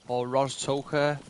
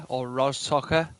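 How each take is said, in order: No difference in how they are said.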